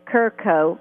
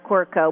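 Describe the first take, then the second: First: The name starts with a plain K sound. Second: The name starts with a KW sound. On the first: This is how the name's owner says it. "He says he pronounces it Kirko" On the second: This is the speaker's own preferred way. "but I like Quirko"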